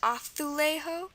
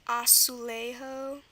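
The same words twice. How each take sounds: First: The 'z' is said as a 'th' sound. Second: The 'z' is said as an 's' sound.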